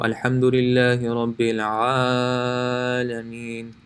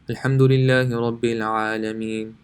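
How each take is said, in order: First: One vowel is stretched much longer than others. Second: It is recited quickly with equal short stretches. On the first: The speaker calls it wrong. "stretch one more than the other, and this is wrong" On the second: The speaker calls it right. "if you're reading fast"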